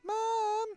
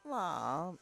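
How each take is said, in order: First: It is said in a little girl voice. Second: It is said in a normal adult voice.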